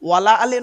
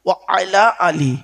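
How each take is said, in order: First: The first two words are run together as one. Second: The first two words are kept clearly separate. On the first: The speaker calls it wrong. "ওয়ালা আলে নয় গো বাবা, ওয়ালা আলে বলবেন না" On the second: The speaker calls it right. "আচ্ছা এটা কি? ও আলা আলী"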